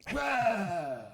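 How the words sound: It sounds happy and excited.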